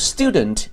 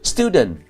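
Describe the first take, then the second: First: The final t sound is clearly pronounced. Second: The final t sound is dropped. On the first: The speaker calls it right. "they produce student" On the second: The speaker calls it wrong. "drop the final consonants often and pronounce them too lightly to be heard"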